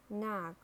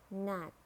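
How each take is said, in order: First: "narc" with a sounded American R; American "narc", curl the R before k; American accent. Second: "knack" as British narc, silent R; British "knack", long ah, said nahk; British accent. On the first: Teacher models narc for learners, American accent. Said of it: "R in American English". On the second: Teacher models narc for learners, British accent. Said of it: "in British English". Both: Shown as a demonstration.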